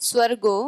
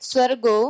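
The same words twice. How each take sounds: The two takes are said the same way.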